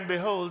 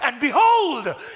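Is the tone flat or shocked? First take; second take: flat; shocked. First: It is said flatly, without excitement. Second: It is said with shocked excitement.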